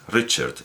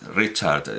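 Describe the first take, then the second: First: The second vowel is a barely heard schwa. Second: The second vowel is a long, full A. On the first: The speaker calls it right. "es una shva, es Richard, Richard, y apenas suena" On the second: The speaker calls it wrong. "y que habrá una A larga"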